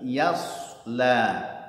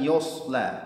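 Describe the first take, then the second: First: The first syllable is thin and light. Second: The first syllable is thickened and heavy. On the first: The speaker calls it right. "alladzi yasla yang tipis ya-nya ... tapi yasla" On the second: The speaker calls it wrong. "ya-nya jangan ditebalkan ... jangan yosla"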